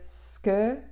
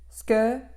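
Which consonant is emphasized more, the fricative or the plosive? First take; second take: fricative; plosive. First: The fricative consonant is given more force. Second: The plosive consonant is held with more force. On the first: The speaker calls it wrong. "au lieu de ske" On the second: The speaker calls it right. "ske au lieu de"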